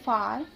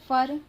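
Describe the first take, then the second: First: The vowel is a long open 'aa'. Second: The vowel is a short 'a'. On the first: "ए को आ कब पढ़ते हैं" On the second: "वैसे तो हम इसे फर"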